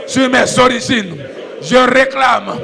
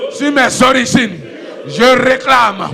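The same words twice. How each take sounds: The two takes are said the same way.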